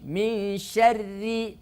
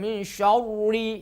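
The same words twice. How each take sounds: First: The r is pronounced light and thin. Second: The r is pronounced heavy and full. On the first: The speaker calls it right. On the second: The speaker calls it wrong. "tidak boleh"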